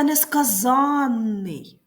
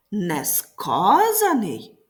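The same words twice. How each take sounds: First: Несказанний with late stress on the АНН suffix; stress on ЗАН. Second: Несказаний with early stress and a light suffix. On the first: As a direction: stretch and hit ЗАН in несказанний. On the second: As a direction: stretch and hit КА in Несказаний. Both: Shown as a demonstration. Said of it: "зверни увагу на наголос у словах".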